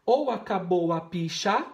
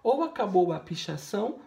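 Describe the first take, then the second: First: "picha" forte e suspenso, como palavra interrompida; cortando as sílabas. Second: Said in the usual way. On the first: Shown as a demonstration. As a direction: cortar depois de "picha", bem alto. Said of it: "também cortando as sílabas". (frase truncada na última sílaba) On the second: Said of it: "Então ficaria assim".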